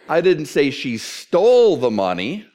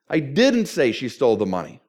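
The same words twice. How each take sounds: First: The stress falls on the word stole. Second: The stress falls on the word didn't. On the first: She did something else with the money. "What did she do? She borrowed it" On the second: The listener wrongly believes it was said. "And apparently you think I did"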